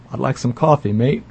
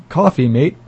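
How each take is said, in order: First: A hint of a bad Australian accent on coffee, mate. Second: Said in the usual way. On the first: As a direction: lightly try an Australian accent, pun on the brand. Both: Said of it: "I can't do a good Australian accent".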